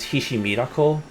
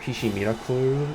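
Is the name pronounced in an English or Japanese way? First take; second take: English; Japanese. First: The name is said with English pronunciation. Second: The name is said with Japanese pronunciation.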